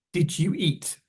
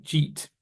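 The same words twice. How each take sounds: First: "Did you eat" with all three words heard; "Did you" kept as two words; full form. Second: "jeet" as one syllable for "did you eat"; short, mashed-together "jeet"; condensed. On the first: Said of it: "sounds like". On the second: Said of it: "condense or mash together". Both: Shown as a demonstration.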